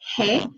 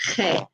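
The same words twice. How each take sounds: First: The throat friction is light and soft. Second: The throat friction is strong and raspy. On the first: "make it just light like a hey" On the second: "more gunk in your throat"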